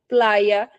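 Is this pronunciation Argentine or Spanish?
Spanish. The Y is said as a y sound. "na Espanha, você vai falar"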